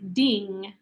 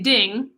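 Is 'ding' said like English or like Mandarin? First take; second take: Mandarin; English. First: It has a Mandarin pronunciation, unlike English ding. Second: It sounds like the English word ding. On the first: The speaker calls it right. "but I think it's ding" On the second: The speaker calls it wrong. "I want to say ding"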